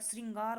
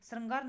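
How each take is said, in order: First: The r is followed by an 'i' vowel. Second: The r is followed by an 'a' vowel. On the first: The speaker calls it right. "री की मात्रा आनी चाहिए बोलने में" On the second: The speaker calls it wrong. "श्रृंगार नहीं होता"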